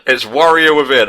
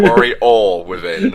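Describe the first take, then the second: First: WARRIOR said clearly, not Wario; stress on WARRIOR. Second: Warrior Within stretched slow and high; emphatic correction. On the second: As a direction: spell out Warrior Within slowly. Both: Shown as a demonstration. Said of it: "Not Wario Within".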